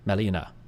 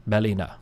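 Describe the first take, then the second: The two takes are said the same way.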